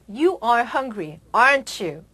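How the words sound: The pitch falls at the end. The asker is almost certain and seeks confirmation. "끝을 내리게 되면"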